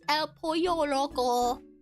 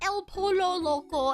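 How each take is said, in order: First: Pollo is said with a Y-like sound. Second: Pollo is said with a plain L sound. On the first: The speaker calls it right. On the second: The speaker calls it wrong. "it's not"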